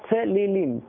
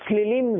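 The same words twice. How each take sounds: First: A short vowel is heard after the first consonant. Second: The first vowel is dropped, starting with a cluster. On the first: This is how the Torah is read correctly. The speaker calls it right. "צריך לומר צלילים" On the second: The speaker calls it wrong. "אם אתה אומר צלילים, זה לא בסדר"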